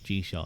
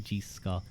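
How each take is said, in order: First: The 'ch' is a soft 'sh' sound. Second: The 'ch' is a throaty, guttural sound. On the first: The speaker calls it right. "It's G Shaw" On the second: The speaker calls it wrong. "I think of it as like as like a Irish C H. So I go Scott"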